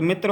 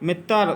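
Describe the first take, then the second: First: Said in the usual way. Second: मित्र with a vowel pushed in before the r; mispronounced tra cluster. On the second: Shown as a demonstration. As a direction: say मित्र as "mit-tar". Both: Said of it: "तो मित्र होता है".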